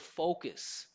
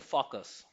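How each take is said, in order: First: The first vowel glides like a diphthong. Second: The first vowel is short and steady. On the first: The speaker calls it right. "the word focus, which has the O sound" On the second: The speaker calls it wrong. "if you don't say O and you say focus"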